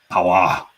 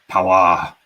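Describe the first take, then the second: Both takes have the same delivery.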